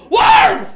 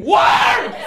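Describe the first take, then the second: First: Shrill high scream of horror. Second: High, loud mock scream. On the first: Retold or imitated. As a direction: shriek it at your scraped hand. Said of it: "just scream". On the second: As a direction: yell it out, replaying the fall. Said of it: "look at her hand and scream".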